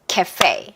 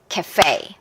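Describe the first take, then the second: No difference in how they are said.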